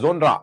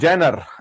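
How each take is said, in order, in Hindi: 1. यह शब्द 'jon' ध्वनि से शुरू होता है। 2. यह शब्द 'jen' ध्वनि से शुरू होता है। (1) "आजकल एक नया वर्ड आया है जोनरा। तो जोनरा वर्ड हमें नहीं बोलना है" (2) "उच्चारण की बात है, मीनिंग वही है जेनर।"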